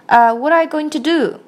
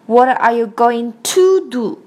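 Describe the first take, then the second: First: The word to is reduced and weak. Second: The word to is said in full. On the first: The speaker calls it right. "我们一般来说" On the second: The speaker calls it wrong. "不是念成"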